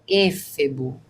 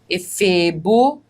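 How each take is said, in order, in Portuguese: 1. A tônica cai na primeira sílaba. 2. A tônica cai na segunda sílaba. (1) "não é éfebo" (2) "paroxítona, que termina em ó"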